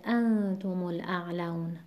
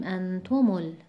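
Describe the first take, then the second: First: انتم الاعلون with the stress on the first ا of انتم; correct stress on ا. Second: انتم ال- with the stress pulled onto the temporary ضمه of م; cut-off wrong example. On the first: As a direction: keep the stress at the start of انتم while linking. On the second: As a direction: show the mistake by stressing تم in انتم. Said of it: "نباید بخونیم". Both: Shown as a demonstration.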